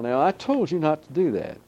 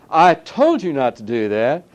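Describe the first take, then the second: First: It is said at a normal, quieter volume. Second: It is said louder, with raised volume.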